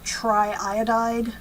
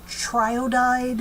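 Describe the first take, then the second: First: Both vowels are kept: tri-iodide. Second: One vowel is dropped: triodide. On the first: The speaker calls it right. "We keep both the vowels there" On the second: The speaker calls it wrong. "harder to hear ... if we just say triodide"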